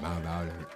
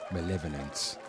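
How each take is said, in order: First: The middle sounds like 'vy', as in violent. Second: The middle sounds like 'lev', as in level. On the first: The speaker calls it wrong. "I said malviolent" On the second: The speaker calls it right. "That's it"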